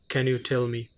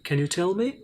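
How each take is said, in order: First: The question sounds flat and uninterested. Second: The question sounds curious and interested. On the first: The speaker calls it wrong. "you can't say" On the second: The speaker calls it right. "have that much interest"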